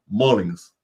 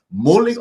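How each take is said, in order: First: Mullins said as "MO-lings", with an o; second pronunciation option. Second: Mullins said as "MU-ling", with an oo; first pronunciation option. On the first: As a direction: offer Mullins as "Molings", with final s. (Mullins pronunciado «Mólins», con o y ese final) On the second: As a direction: offer Mullins as "Mooling", no final s. (Mullins pronunciado «Múlin», con u) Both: Shown as a demonstration. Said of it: "cuál es su apellido correctamente".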